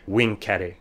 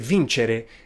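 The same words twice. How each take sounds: First: The c sounds like k. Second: The c sounds like ch. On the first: This is how ancient Romans said it. "Latin C always sounded like K ... Romans talked about conquering they said vincere" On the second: This is how modern Italians say it. "before e's and i's it makes a soft sound ... good Italians say vincere"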